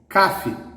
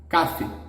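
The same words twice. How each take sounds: First: The stress is on the first syllable. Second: The stress is on the first syllable.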